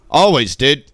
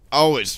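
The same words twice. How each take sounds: First: Always, dude. with ALWAYS punched louder; emphatic always. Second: Said in the usual way. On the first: Real, not acted. Streamer hyping his support, ALWAYS stressed loud. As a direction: lean hard on ALWAYS, rising.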